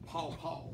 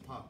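First: Both vowels sound like 'aw', a Southern pronunciation. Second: Both vowels sound like 'ah', a standard pronunciation. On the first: This is the regional way people in the South say it. The speaker calls it wrong. "we in the South say pawpaw" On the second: This is the way the word in the text is read. The speaker calls it right. "that's papa"

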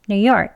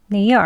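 Both takes have the same delivery.

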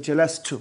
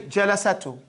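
First: No vowel is pronounced between the s and t. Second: A vowel is pronounced between the s and t. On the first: The speaker calls it right. "this is made sukun in that regard and it says jalastu" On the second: The speaker calls it wrong. "you don't say jalasatu"

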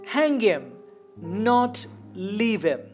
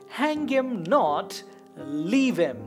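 First: The pause comes after the first "him". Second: The pause comes after "not".

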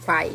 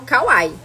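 First: The name is said as one syllable. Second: The name is said with several syllables. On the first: This is how other people say it. "tem gente que fala Kwai" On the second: This is how the speaker says it. "Eu falo Kawaii"

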